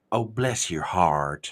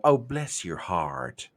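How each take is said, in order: First: Slow, low Southern drawl; drawn-out sweet Southern put-down. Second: Slow, low drawl; Southern drawl. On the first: Retold or imitated. Southerner to a silly idea, slow low drawl. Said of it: "that's when you look at them and go". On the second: Shown as a demonstration. Showing how to say it with that much drawl. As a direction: stretch it out like a Southern lady. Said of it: "say it with just that much drawl".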